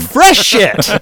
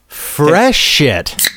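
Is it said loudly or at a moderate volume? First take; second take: loudly; moderate. First: It is shouted very loudly. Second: It is said at a moderate volume.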